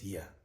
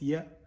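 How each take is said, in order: First: The sound has slack, breathy voicing. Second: The sound is fully voiced. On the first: "slack voice yeah" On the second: "fully voiced yeah"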